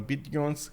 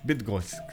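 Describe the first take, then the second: First: The name ends with an 'ons' sound. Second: The name ends with an 'oshch' sound. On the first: The speaker calls it wrong. "I'm not sure if I'm pronouncing it correctly" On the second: The speaker calls it right. "Got it"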